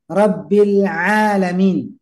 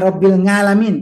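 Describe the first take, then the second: First: The second word starts with a throat sound. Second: The second word starts with a nasal 'ng' sound. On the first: The speaker calls it right. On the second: The speaker calls it wrong.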